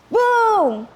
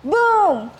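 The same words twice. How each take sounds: First: A high, loud "Boom!" for lightning; booming sound effect. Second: A big, high "Boom!" for thunder; booming sound effect. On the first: Narrator booms out the lightning crash. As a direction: boom out the thunderclap. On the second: Narrator booms out the thunder crash. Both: A narrator's reading.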